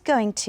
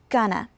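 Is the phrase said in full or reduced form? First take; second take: full; reduced. First: Both words are said fully and separately. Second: The words are reduced and merged together. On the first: "we take the words going to" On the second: "we pronounce it gonna"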